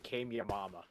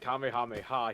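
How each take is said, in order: First: The word ends with the sounds 'yamama'. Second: The word ends with the sounds 'hameha'. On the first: The speaker calls it wrong. "decided to say it wrong on purpose" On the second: The speaker calls it right. "instead of saying it Kamehameha"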